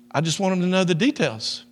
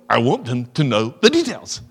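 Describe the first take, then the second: First: Higher, gentle loving tone; said in love. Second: Sharp retort. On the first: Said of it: "say in love". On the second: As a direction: imitate snapping each word out sharply. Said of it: "you spoke sharply". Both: Retold or imitated.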